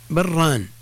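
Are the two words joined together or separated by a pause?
Joined. The two words run together with no pause. It can sound like a dual form of another word. The speaker calls it wrong. "الأصل أن الحكم التجويدي هنا الإدغام"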